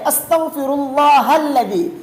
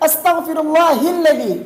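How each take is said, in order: First: The vowel after 'Allah' is an 'a' sound. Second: The vowel after 'Allah' is an 'i' sound. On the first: The speaker calls it right. "लफ्ज़ अल्लाह के हा के ऊपर ज़बर है" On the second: The speaker calls it wrong. "यानी लफ्ज़ अल्लाह के हा के ऊपर ज़ेर पढ़ते हैं"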